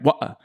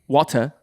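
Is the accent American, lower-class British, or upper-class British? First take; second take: lower-class British; upper-class British. First: It is said in a lower-class British accent. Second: It is said in an upper-class British accent.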